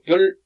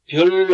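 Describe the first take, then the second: First: The syllable is cut off abruptly. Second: The syllable is drawn out long. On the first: The speaker calls it right. "이렇게 에, 탁 끊어집니다" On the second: The speaker calls it wrong. "별 아니고"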